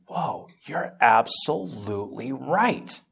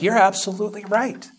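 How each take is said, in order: First: Hushed awe. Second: Much higher and louder, fervent; emphatic agreement. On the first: Retold awed realization, hushed. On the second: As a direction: declare it with conviction. Retold agreement, now emphatic. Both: Retold or imitated.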